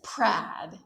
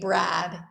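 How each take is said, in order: First: The name begins with a voiceless P sound. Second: The name begins with a voiced B sound. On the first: This is how the Korean spelling reads. "it says Prad" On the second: This is the name as intended. "That doesn't say Brad"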